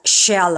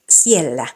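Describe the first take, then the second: First: The word begins with an sh sound. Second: The word begins with a plain s sound. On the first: The speaker calls it wrong. "not shella" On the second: The speaker calls it right. "So it's siellä"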